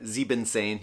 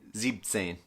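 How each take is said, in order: First: The word has an extra en syllable. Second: The en syllable is dropped from the word. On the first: The speaker calls it wrong. "chop off an en. So instead of" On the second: The speaker calls it right. "you'd say"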